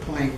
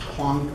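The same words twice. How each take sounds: First: The name is pronounced the English way. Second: The name is pronounced the German way.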